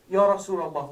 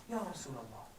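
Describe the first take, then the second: First: A sudden loud cry of Ya Rasulullah; loud, pleading call to the Prophet; loud plea. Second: Hushed plea. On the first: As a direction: call out Ya Rasulullah loudly, begging. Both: Retold or imitated. Begging the Prophet in the hospital.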